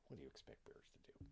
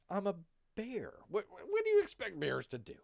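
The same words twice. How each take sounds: First: Very low, whispered repeat; muttered echo. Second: High, loud indignant bear; mock protest. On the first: Acted. Bear repeats the excuse under the breath, muttered echo. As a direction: drop to a hushed, low whisper. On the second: Bear answers the charge of killing the dog, mock protest. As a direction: protest it loudly, voice jumping up.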